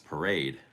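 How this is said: The word is pronounced the English way. "If you're saying it in English"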